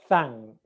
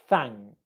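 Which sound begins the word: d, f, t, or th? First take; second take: th; th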